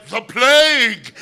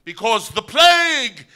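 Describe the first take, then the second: First: Slow, high, loud plague cry; slow stunned proclamation. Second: Slow, high, loud proclamation; the scripted line, shouted to the general; dramatic proclamation. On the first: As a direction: cry the scripted line, sticking to the script. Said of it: "Miles went". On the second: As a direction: announce the doom theatrically. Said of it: "the line was". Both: Retold or imitated.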